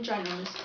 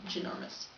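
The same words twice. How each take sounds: First: "ginormous" begun with "jai", like giant; first syllable of "ginormous" rhymes with "eye"; long-i ginormous. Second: "ginormous" begun with a quick "juh"; reduced first vowel in "ginormous", juh not jai; short-vowel ginormous. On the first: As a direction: say "ginormous" as jai-NOR-mous. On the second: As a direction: say "ginormous" as juh-NOR-mous, softly. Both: Shown as a demonstration. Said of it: "Not even ginormous, ginormous".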